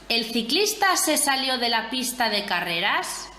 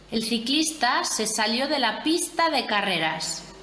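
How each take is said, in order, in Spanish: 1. Se dice con una entonación interrogativa. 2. Se dice con una entonación plana y descendente de afirmación. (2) "frase enunciativa normal"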